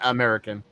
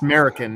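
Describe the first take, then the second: First: The first vowel is kept, full American. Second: The first vowel is dropped, like 'Merican. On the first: The speaker calls it wrong. "not American" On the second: The speaker calls it right. "Drop the A. It's American"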